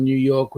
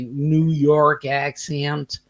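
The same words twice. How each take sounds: First: Said in the usual way. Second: Drawn-out, half-hearted New York accent; attempted New York accent. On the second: Shown as a demonstration. Host reading a chat comment aloud, attempted New York accent. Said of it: "Can't do that".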